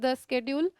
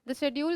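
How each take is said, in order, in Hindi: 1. यह शब्द 'sk' ध्वनि से शुरू होता है। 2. यह शब्द 'sh' ध्वनि से शुरू होता है।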